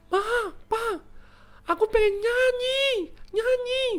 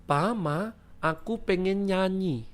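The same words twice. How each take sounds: First: Put-on very high, stretched-out child's squeal; child yelling. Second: Put-on higher, drawn-out model of a child's call; father demonstrating phrase. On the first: Vio shouts to the parents when needing to pee, high child yell. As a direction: yell the code phrase like a desperate toddler. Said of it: "mau teriak pun". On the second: Papa teaches Vio the code phrase, slow demonstration. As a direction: show the child how to say it, unshouted. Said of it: "bilang gini supaya papa langsung ngerti".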